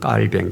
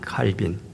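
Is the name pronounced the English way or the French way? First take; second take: French; English. First: The name is said as 'Kkalbaeng', French-style. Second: The name is said as 'Kalbin', English-style. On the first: This is the local form from the person's own language. "프랑스 발음으로 장 깔뱅" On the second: This is the older form taken from English. "영어식 발음으로"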